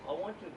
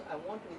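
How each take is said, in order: Both takes have the same delivery.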